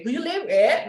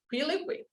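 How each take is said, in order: First: "Who you live with?" louder and higher with an overdone rise; exaggerated question rise. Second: "who you live with?" quick and softer with a light natural rise; just ask it naturally; natural question. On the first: Teacher showing the exaggerated way to ask. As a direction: overact the question tune. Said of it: "not exaggerated". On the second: Teacher showing the natural way to ask. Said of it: "Just like a question". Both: Shown as a demonstration.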